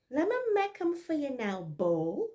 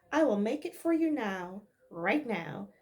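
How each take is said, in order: First: Higher, louder Bajan dialect; abrupt Barbados speech; Bajan accent. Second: Said in the usual way. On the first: Maid abruptly offering breakfast in Bajan dialect. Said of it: "this is Bajan dialect". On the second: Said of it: "In plain English".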